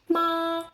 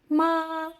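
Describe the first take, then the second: First: It is said on a high, level pitch. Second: The same.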